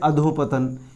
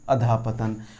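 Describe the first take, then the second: First: The first part ends with an 'o' sound. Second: The first part ends with a breathy 'ah' sound. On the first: The speaker calls it wrong. "अधोपतन जैसा कोई शब्द नहीं होता है" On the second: The speaker calls it right. "वो ये है अधःपतन"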